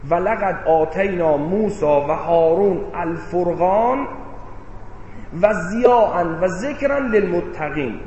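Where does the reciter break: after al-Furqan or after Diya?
after Furqan. The phrase breaks right after the word al-Furqan. Only the Criterion was given to Moses and Aaron. "یعنی بگیم فرقان مال حضرت موسی و هارون، بعد ضیاء و ذکر برای متقیان"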